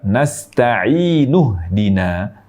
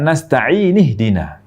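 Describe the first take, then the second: First: The words are linked with a u vowel. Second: The words are linked with an i vowel. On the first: The speaker calls it right. "Jika menyambung, maka kita baca nasta'inuhdina" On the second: The speaker calls it wrong. "Bukan nasta'inih-dina"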